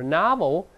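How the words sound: It is said in an American accent. "在美式发音这个o 变成r"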